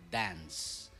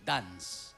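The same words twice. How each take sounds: First: The word is said in a standard English way. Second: The word is said with an Ilocano-accented vowel. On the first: The speaker calls it right. "pag-pronounce mo ng dance" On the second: The speaker calls it wrong. "Naging dance. Yun yung sakit ng mga Ilocano"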